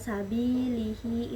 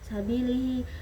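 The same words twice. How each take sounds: First: The i vowel is held long. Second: The i vowel is cut short. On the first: The speaker calls it right. "ada kasrohnya, dibaca panjang" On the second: The speaker calls it wrong. "tidak sempurna"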